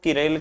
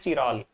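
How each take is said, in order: First: It starts with a k sound, then an e vowel. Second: It starts with a ch sound, then an a vowel. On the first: "कुछ लोग किरेल कहते हैं" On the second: "और कुछ कहते हैं चिराल"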